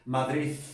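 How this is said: The final d sounds like a th sound. "¿Cómo sería en Madrid?"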